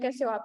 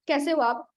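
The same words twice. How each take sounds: First: It is said in a sleepy, drowsy voice. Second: It is said in an alert, lively voice.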